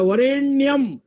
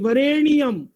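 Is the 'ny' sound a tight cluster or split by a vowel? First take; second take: cluster; split. First: The 'ny' sound is a tight cluster. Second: An extra 'i' vowel splits the 'ny' sound. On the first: The speaker calls it right. "अड़ा आधा है" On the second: The speaker calls it wrong. "वरेण्यम में ई की मात्रा लगा दी"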